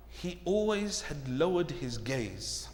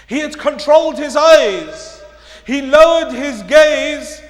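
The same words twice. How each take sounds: First: Very soft, low and slow; slow, subdued preaching; hushed revelation. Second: Loud, high and punched; projected, ringing restatement; emphatic preaching. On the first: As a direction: let the key point land quietly. Key point softly, then repeated loudly. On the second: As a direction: drive the point home forcefully. Key point repeated at full force. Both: Real, not acted.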